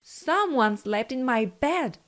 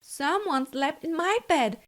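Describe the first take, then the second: First: It is growled in Papa Bear's loud voice. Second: It is said in Mama Bear's medium voice.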